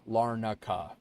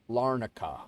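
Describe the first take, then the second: Both takes have the same delivery.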